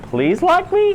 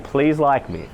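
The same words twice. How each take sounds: First: "Please like me?" with "me" swooping far higher at the end; pleading question, voice leaping up on "me"; upward inflection. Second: Said in the usual way. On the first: Shown as a demonstration. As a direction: beg for approval with a steep rise on "me". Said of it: "it tails up at the end". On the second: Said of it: "you're literally saying".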